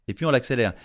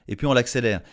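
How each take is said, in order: The two takes are said the same way.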